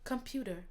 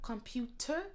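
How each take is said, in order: First: The middle consonant sounds like a D. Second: The middle consonant is a clear T. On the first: The speaker calls it right. "le T, ça devient un peu comme un D" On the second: The speaker calls it wrong. "c'est pas vraiment computer"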